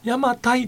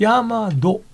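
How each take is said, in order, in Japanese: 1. 名前は'tai'という音節で終わる。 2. 名前は'to'という音節で終わる。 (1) "あれ邪馬台じゃないんですって" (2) "昔の中国の発音では"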